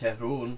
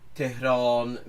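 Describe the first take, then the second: First: The last vowel is an u sound. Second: The last vowel is a long o sound. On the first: This is the informal spoken form. "become an u sound" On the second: This is the formal form. "in proper formal speech have a long o sound"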